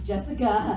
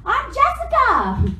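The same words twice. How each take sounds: First: Said in the usual way. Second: High, drawn-out mock-eager girl; perky introduction. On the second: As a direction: imitate an eager introduction, pitched way up. Retelling a girl introducing herself brightly.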